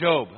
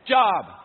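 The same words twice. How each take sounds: First: It is said the way others say it. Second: It is said as the letters spell it. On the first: This is how others say the name. "So why do they say Job?" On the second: This is how the spelling would be read. "What does J-O-B spell?"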